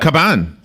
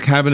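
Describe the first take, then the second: First: The name is said with a Spanish accent. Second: The name is said with an English accent. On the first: The speaker calls it right. "You need to get the Spanish uh, accent going" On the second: The speaker calls it wrong. "Close? Oh, not good enough"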